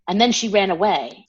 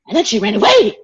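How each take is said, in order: First: It is read calmly and plainly. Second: It is read excitedly, like an exclamation.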